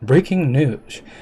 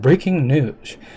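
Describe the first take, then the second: First: It is said in a news anchor voice. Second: It is said in a news anchor voice.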